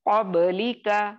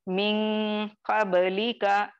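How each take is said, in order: First: The q sound is heavy and full. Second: The q sound is light and thin. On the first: The speaker calls it right. "इस तरह से मोटा करके पढ़ेंगे" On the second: The speaker calls it wrong. "इस तरह से नहीं पढ़ेंगे"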